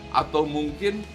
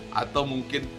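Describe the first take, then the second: Both takes have the same delivery.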